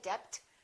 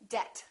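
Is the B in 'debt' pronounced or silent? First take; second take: pronounced; silent. First: The B is pronounced. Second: The B is silent. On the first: The speaker calls it wrong. "Don't say" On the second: The speaker calls it right. "say; the silent B"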